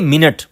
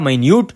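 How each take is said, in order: First: It is said with a short first vowel, 'min-it'. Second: It is said with a long 'my' start, 'my-noot'. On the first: It refers to a unit of time. "जब time के मानों में हम लेंगे तो यही spelling होगी और हम कहेंगे मिनट" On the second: It means something very small. "यहां पर जो हमने इसकी प्रोनाउंसिएशन की है वो है माइन्यूट"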